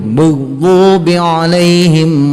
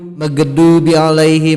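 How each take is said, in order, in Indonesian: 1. Konsonannya dalam dan serak, diucapkan lebih ke belakang. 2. Konsonannya biasa saja, seperti g dan d dalam bahasa Indonesia. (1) "Lebih dalam lah" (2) "supaya tidak jadi du magedu bi alaihim"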